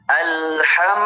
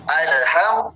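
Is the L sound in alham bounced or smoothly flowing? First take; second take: flowing; bounced. First: The L flows smoothly into the next sound. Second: The L is bounced with a sharp rebound. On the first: The speaker calls it right. "harus dijalankan sedikit" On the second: The speaker calls it wrong. "kalau dipantulkan"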